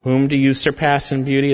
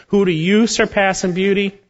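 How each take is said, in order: First: Said in the usual way. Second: Mocking high-pitched scorn for proud Egypt; sarcastic. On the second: Shown as a demonstration. Preacher mocking proud Egypt's beauty, sarcastic and high. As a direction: sneer the question up high, mockingly. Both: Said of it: "That's a sarcastic statement".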